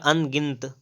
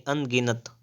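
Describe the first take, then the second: First: अनगिनत ending in a joined nt; wrong pronunciation. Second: अनगिनत with a vowel before final t; full an-gi-nat in अनगिनत; correct pronunciation. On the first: Teacher showing the error, अनगिनत as an-gint. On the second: Teacher correcting, अनगिनत as an-gi-nat. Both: Shown as a demonstration. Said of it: "अनगिनत नहीं".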